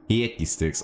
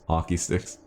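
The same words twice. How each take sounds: First: "Hickey" said in place of hockey, higher; exaggerated accented vowel. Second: Said in the usual way. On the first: Streamer joking about Canadian hockey sticks, "Hickey" with twisted vowel.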